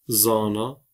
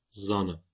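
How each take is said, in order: First: The A vowels are held long. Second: The A vowels are said short. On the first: "Kürtçe'de uzun A bulunmaktadır" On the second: "Zana kelimesinin Türkçe telaffuzudur"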